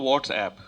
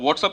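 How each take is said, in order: First: The last syllable has the vowel of 'app'. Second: The last syllable has the vowel of 'up'. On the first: This is the actual name. "है तो व्हाट्सएप" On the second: This is how people commonly say it. "हम लोग व्हाट्सअप ही बोलते हैं"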